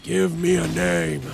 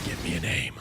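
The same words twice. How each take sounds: First: Slow, drawn-out ominous demand; dramatic demand. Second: Much lower, softer, sinister demand; menacing villain. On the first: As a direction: stretch it like a movie threat. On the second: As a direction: growl it like a mob boss. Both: Pretend.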